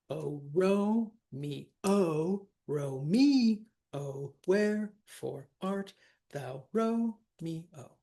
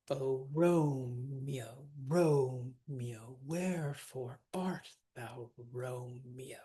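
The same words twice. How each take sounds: First: Overpronounce every syllable of "Romeo" so the verse drags; unsquished syllables. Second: Each "Romeo" glided as two syllables, ROME-yo, in a slow even beat; squished syllables. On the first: Teacher showing the messed-up music, "Romeo" laboured in three syllables. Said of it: "because if we don't, listen to what happens". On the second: Teacher showing the restored verse, "Romeo" elided to two syllables. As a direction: squish "Romeo" to ROME-yo and let the line flow. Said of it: "from Romeo to Romeo, right, we get". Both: Shown as a demonstration.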